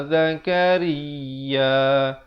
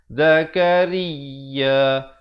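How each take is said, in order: Both takes have the same delivery.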